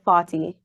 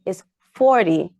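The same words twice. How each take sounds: First: Said in the usual way. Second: Forty with a hard American R, FOR-tee; imitating the daughter's American forty. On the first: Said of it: "It's not forty, it's forty". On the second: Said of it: "she was like".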